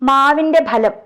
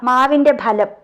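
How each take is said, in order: The two takes are said the same way.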